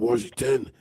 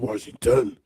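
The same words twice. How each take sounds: First: The last syllable is reduced to 'tin'. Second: The last syllable is said fully as 'ton'. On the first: The speaker calls it wrong. "They replaced the T O N with T I N or T E N" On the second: The speaker calls it right. "it's Washington"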